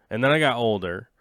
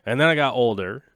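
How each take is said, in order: Both takes have the same delivery.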